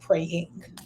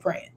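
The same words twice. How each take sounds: First: The word ends with a full g sound. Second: The word ends without a g sound. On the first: This is not how people from the South say it. "we don't say praying" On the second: This is how people from the South say it. "I knocked off the G because you know I'm saying we from the South"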